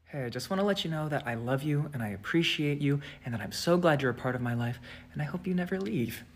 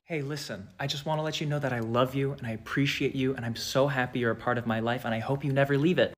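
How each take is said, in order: First: Soft, low, menacing sweetness; creepy version. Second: Soft, low sincere; sweet plain eyes. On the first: With the creepy eyes on, sweet but menacing. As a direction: let it sound malicious. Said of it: "turn the eyes on". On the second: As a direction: say it kindly, eyes normal. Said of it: "it looks malicious". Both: Shown as a demonstration.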